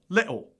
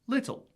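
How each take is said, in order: First: Cockney or Scottish accent with a glottal T. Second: RP accent with a fully pronounced T.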